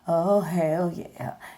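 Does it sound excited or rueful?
rueful. It sounds rueful and sarcastic.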